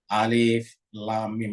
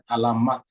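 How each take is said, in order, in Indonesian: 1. Setiap nama huruf dieja terpisah satu per satu. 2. Huruf-huruf itu dibaca menyambung menjadi satu kata. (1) "Ini harus dibaca terpisah-pisah, terpotong-potong" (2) "tidak boleh dibaca alamat. Misalnya ini kan alamat, tidak boleh"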